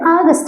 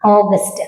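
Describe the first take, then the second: First: The first vowel is an open 'aa' sound. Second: The first vowel is a rounded 'o' sound. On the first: "ആഗസ്റ്റ് എന്ന് പറയുന്നവരുണ്ട്" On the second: "ഇതിന്റെ ശരിക്കും English pronunciation പറയുന്നത് ഓഗസ്റ്റ് എന്നാണ്"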